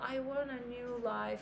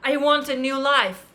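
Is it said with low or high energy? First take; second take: low; high. First: It is said flatly with little energy. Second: It is said forcefully with strong energy.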